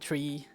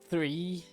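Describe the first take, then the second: First: It starts with a hard t sound. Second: It starts with a soft th sound. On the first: The speaker calls it wrong. "I would be saying tree" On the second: The speaker calls it right. "instead of three"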